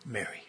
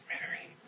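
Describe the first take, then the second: First: Softly spoken name; tender name. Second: Whispered, very soft name. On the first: Jesus calls Mary by name, soft and tender. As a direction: say her name gently, personally. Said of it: "He just spoke her name". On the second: Jesus softly whispers Mary's name to her. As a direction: breathe her name like a secret. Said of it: "He said". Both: Retold or imitated.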